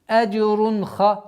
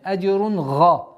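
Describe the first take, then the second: First: The second word starts with a harsh 'kh' sound. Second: The second word starts with a voiced 'gh' sound. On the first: The speaker calls it wrong. "чтобы не переходило в звук ха" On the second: The speaker calls it right. "Нет, аджрун га"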